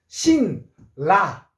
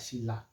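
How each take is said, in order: First: Syllables said apart, the first ending in n. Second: Said as one word, the n becomes l. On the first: The speaker calls it wrong. "이렇게 안 했죠?" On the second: The speaker calls it right. "요 소리 납니다"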